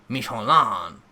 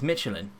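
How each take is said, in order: First: The name is said with a French accent. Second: The name is said with an English accent.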